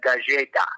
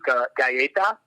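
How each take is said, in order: First: The double L sounds like an English J. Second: The double L sounds like an English Y. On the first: This is how people in Colombia might say it. "in Colombia, they might say like galleta, like two L's makes a ja" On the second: This is the usual pronunciation. "You would usually pronounce it as like two L's make a ya sound"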